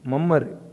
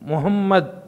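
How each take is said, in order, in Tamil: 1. அந்தப் பெயர் உள்ளூர் சுருக்கமான வடிவத்தில் சொல்லப்படுகிறது. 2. அந்தப் பெயர் அரபு முழு வடிவத்தில் சொல்லப்படுகிறது. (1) "மம்மருங்கிறது எவ்வளோ பெரிய எவ்வளோ மாற்றம் பாருங்க" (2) "முஹம்மத் மம்மர்"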